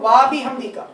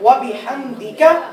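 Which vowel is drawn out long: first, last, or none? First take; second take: first; none. First: The opening 'wa' vowel is stretched long. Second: All the vowels are kept short. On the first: The speaker calls it wrong. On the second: The speaker calls it right.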